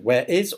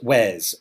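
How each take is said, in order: First: Both words are said separately in full. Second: The two words are joined into one syllable.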